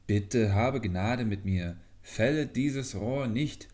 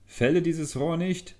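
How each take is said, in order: First: Pleading voice. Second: Sudden high, loud command; a cry from inside the bamboo, much higher and louder. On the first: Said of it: "sprach die Stimme weiter". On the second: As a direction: hidden voice in the bamboo orders the girl to stop. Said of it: "hörte sie plötzlich ... eine Stimme kommen". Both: A narrator's reading.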